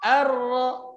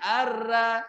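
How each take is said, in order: First: The r syllable sounds thick and full. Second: The r syllable sounds thin and open. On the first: The speaker calls it right. "Dia suaranya berkumpul di dalam. Jadi terdengar tebal" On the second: The speaker calls it wrong. "Enggak boleh dibaca ar-ra"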